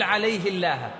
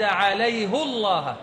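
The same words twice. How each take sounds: First: The h is followed by an i vowel. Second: The h is followed by a u vowel. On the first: "ولم يقل عليه الله" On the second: "لكن الله يستعمل الضم"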